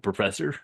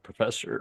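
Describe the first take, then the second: First: It is said in a put-on character voice. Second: It is said in his normal voice.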